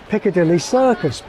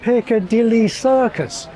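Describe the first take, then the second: First: Some beats are skipped, crunching syllables together. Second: Every stressed syllable gets its own even beat. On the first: It sounds like normal speech. The speaker calls it right. "It's more natural sounding to skip some of the beats" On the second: It sounds very emphatic. The speaker calls it wrong. "it still sounds weighty and measured"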